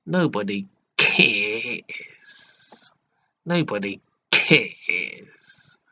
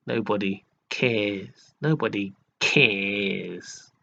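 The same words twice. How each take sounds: First: Put-on very slow, drawn-out "Nobody cares" in a posh American accent; mock American posh accent. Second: Slow, drawn-out mocking "Nobody cares"; posh mock voice. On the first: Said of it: "American sort of accent style". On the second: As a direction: mimic his posh, lazy way of saying "Nobody cares". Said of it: "in that sort of, uh, posh voice".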